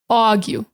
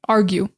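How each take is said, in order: First: Said in a New York accent with an aw vowel. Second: Said in a standard American accent with the R. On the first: "New York does more of a A W" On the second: "standard American English, we just say argue"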